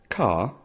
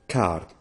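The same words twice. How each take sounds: First: The r is not pronounced; the vowel is lengthened. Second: The vowel stays plain and the r is rolled. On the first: This is the English word. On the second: This is the Welsh word.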